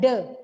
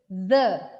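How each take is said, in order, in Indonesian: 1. Kata itu diawali dengan bunyi d yang berhenti. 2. Kata itu diawali dengan bunyi th yang berdesah. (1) "bukan the" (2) "Jadi the"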